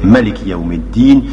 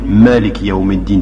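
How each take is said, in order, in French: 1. La voyelle après le m est brève. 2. La voyelle après le m est longue. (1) "dans l'autre il n'existe pas" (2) "Il y a un mad d'après le mime"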